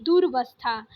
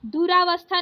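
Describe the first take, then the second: First: दुर्वस्था without the long raa; corrected shorter form. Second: दुरावस्था with a long raa; wrong extra long vowel. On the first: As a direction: say दुर्वस्था as "dur-vas-thaa". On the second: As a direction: say दुरावस्था as "du-raa-vas-thaa". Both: Shown as a demonstration. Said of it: "दुरावस्था नहीं".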